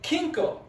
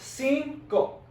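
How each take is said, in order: First: The first sound is a hard K. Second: The first sound is a hissing S. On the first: The speaker calls it wrong. "you don't say it like kinko" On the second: The speaker calls it right. "the C sounds like an S"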